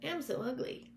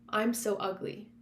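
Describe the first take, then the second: First: It is said in a silly, funny voice. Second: It is said in a normal voice.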